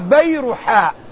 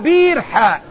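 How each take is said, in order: First: The name does not start with 'bir'. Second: The name starts with 'bir', the word for well. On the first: The whole word is the garden's name. The speaker calls it right. "الحديقة اسمها بيرحاء" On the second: The place is treated as a well. The speaker calls it wrong. "ليس البير اسم للموضع"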